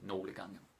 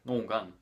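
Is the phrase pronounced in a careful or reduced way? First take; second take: careful; reduced. First: The phrase is said in a careful, full way. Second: The phrase is said in a lazy, reduced way. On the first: This is the official way to say it. The speaker calls it right. "officially you're supposed to pronounce it" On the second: This is how people casually say it. The speaker calls it wrong. "Danish people are too lazy to pronounce it properly. So they're just like"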